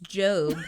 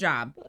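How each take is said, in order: First: The name is said with a long O vowel. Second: The name is said with a short O vowel. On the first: The speaker calls it right. "I know how to pronounce it now" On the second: The speaker calls it wrong. "I did not know how to say Job until about a month ago, and I called him Job"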